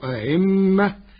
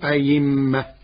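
First: The second hamza is softened between hamza and vowel. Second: The second hamza becomes a clear 'y' sound. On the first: "بتسهيل الهمزة الثانية بين" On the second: "وإبدالها ياء خالصة"

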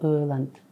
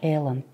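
First: The first vowel is a rounded ö sound. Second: The first vowel is an unrounded e sound. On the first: This is the proper Kazakh pronunciation. The speaker calls it right. "бірақ ол өланд" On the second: This is how Russian speakers say it. The speaker calls it wrong. "орысша эланд деп айтады"

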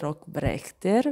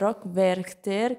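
First: The second word begins with a B sound. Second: The second word begins with a W sound. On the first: The speaker calls it wrong. "pronuncio sempre male perché dico sempre" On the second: The speaker calls it right. "ma no"

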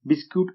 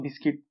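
First: The second syllable sounds like 'kyoot'. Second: The second syllable sounds like 'kit'. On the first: This is the standard English way of saying it. "Standard इंग्लिशनुसार बिस्क्यूट असं pronunciation आहे" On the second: This is the casual everyday way of saying it. "आपण आपल्या सोयीनुसार म्हणतो बिस्किट"

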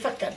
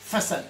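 First: The c is pronounced as a hard k. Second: The c is pronounced as a soft s. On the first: "sans cédille, je lirai facade" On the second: "grâce à la cédille, je vais avoir le son ce"

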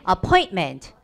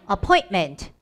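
The two takes are said the same way.

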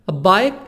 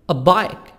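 The two takes are said the same way.

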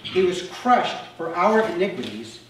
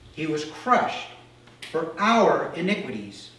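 First: It is read plainly, without added emphasis. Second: It is read with strong emphasis on certain words. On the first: "I just kind of read through it right there" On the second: "Now I'm going to reread it with certain emphases"

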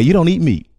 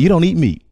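First: The voice sounds warm and approving. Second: The same.

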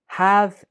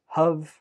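First: The word is said with a full vowel. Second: The word is said with a reduced vowel.

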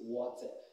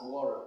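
First: It is said with a British accent. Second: It is said with an American accent. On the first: The speaker calls it right. "the proper articulation of this word in the British vocabulary is water" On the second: The speaker calls it wrong. "Don't mind the Americans that pronounce this word as water"

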